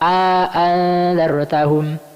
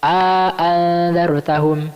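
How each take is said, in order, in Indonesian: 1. Vokal panjang disisipkan di antara kedua hamzah. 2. Vokal panjang disisipkan di antara kedua hamzah.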